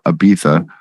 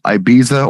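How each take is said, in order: First: The middle consonant is a lisped th sound. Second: The middle consonant is a plain z sound. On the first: "with a lisp" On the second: "depending on where you're from"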